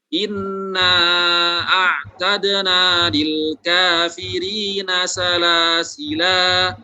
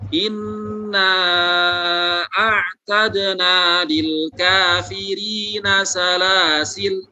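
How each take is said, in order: First: The last word ends with a drawn-out vowel. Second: The last word ends on a bare consonant. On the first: "dua harokat" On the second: "lamnya dibaca sukun"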